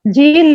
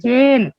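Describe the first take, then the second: First: The vowel sounds like a long 'ee'. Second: The vowel sounds like 'e' as in 'they'. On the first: The speaker calls it wrong. "झील नहीं" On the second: The speaker calls it right. "ये की आवाज आ रही"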